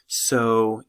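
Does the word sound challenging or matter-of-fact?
matter-of-fact. It is said in a calm, matter-of-fact way. A summary is about to follow. "as the introduction to a summative statement"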